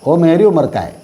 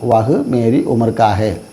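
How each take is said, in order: First: The words are reduced and run together. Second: Each word is pronounced fully and separately. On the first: "പറയുമ്പോഴോ ഓ മേരി ഉമർക്കായേ" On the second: "എഴുതുമ്പോൾ നമ്മൾ എഴുതും വഹ് മേരി ഉമർക്ക ഹേ"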